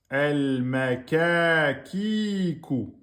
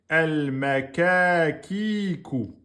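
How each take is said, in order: The two takes are said the same way.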